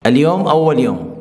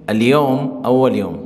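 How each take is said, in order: First: Said in the usual way. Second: Slow model sentence. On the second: Shown as a demonstration. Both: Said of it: "عربی میں ہم بولیں گے".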